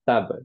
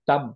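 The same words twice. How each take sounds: First: The final b is released with an echoing bounce. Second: The final b is closed off with no echo. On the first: The speaker calls it right. "আমরা বলি হচ্ছে তাব, বিকজ এটা কলকলা letter" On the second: The speaker calls it wrong. "তাব না বলে"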